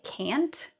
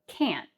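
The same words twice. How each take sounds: First: The final T is fully released. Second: The final T is stopped, not released. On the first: The speaker calls it wrong. "So we don't say can't" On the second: The speaker calls it right. "we have what's called a stop T"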